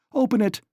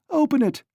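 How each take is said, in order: First: High, loud shout; loud high cry; calling out. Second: Much higher, louder shout; frantic high shout; calling out. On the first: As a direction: shout through the door. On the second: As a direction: scream it even higher at the door. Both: A narrator's reading. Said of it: "she called".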